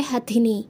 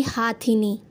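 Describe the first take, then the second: First: हथिनी with short first vowel, "ha-thini"; correct form. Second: हाथिनी slow, with long aa, "haa-thini"; wrong form. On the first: Teacher naming the female elephant, हथिनी with short ha. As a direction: say हथिनी with a brief 'ha'. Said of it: "वो कहलाता है". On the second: Teacher warning against the wrong word, हाथिनी with drawn-out haa. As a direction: stretch the 'haa' of हाथिनी. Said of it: "ना कि". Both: Shown as a demonstration.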